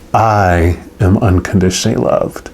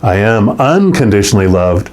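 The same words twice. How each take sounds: First: The word "I" carries the main stress. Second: The word "unconditionally" carries the main stress. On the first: It is personally about oneself. "Emphasize the first word" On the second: It comes with no conditions. "And then we talked about the unconditionally"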